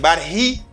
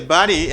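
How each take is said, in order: First: The two words are said fully and separately. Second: The two words blend into one reduced word. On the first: "instead of saying but he" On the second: "You say buddy"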